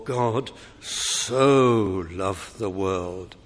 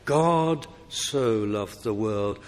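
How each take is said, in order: First: Very slow, lower reading with "so" drawn out long; strong stress on "so". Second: Slow reading with weight on "so"; measured stress on "so". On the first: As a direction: stretch SO out for heavy emphasis. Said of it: "emphasis should be put on the so". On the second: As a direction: give "so" deliberate, measured weight. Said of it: "I'm reading it right". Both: Shown as a demonstration.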